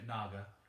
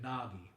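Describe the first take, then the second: First: The name ends with an 'ah' sound. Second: The name ends with an 'ee' sound. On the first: This is how people from one region say it. "If you're from Gaia, you name it Naga" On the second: This is how people from another region say it. "the Empire of Dunts, you name it Nagi"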